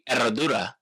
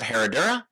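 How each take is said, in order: First: It has a silent H and rolled R. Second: It has a spoken H and English R. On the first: The speaker calls it right. "a silent H and the double rolled R" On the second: The speaker calls it wrong. "instead of Herradura"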